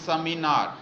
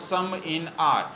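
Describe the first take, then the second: First: The words are run together into one unit. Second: The words are said apart as separate units. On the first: The speaker calls it right. "this is sounded as seminar" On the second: The speaker calls it wrong. "this is not"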